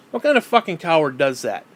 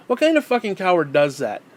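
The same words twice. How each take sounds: The two takes are said the same way.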